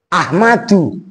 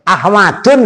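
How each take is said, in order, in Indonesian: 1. Kata ini diakhiri vokal, tidak ada n. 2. Kata ini diakhiri bunyi n tambahan.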